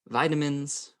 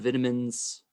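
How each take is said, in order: First: It is said in the speaker's usual pronunciation. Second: It is said in an English-speaking European pronunciation.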